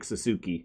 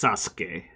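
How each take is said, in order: First: Every vowel is pronounced, including the middle u. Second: The middle u is dropped and the s lengthened. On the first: The speaker calls it wrong. "spelled like Sasuke" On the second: The speaker calls it right. "it's pronounced Sasuke. Like you just pause on the S a little more"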